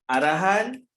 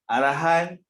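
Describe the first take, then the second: The two takes are said the same way.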